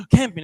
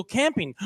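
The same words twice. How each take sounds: First: Gasp, then a much louder mock-shocked question; scandalised echo. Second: Said in the usual way. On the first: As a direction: imitate a horrified aunt catching one word. Aunt scandalised, echoes his word.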